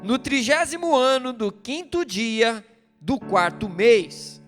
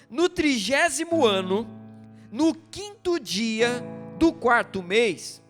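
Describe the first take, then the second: First: It is read at a normal, quicker pace. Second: It is read at a slower, deliberate pace.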